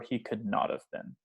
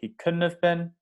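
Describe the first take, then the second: First: 'Could not' is said in full, with emphasis. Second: 'Could not' is contracted into one word.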